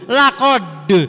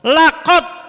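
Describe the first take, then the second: First: The final d is released with a bounce. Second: The final d sound is not pronounced. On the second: "dal hilang"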